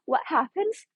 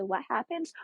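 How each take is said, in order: First: Excited teasing question. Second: Said in the usual way. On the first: Real, not acted. Fan teasing what comes next in the romance, excited question. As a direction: squeal the question to build suspense.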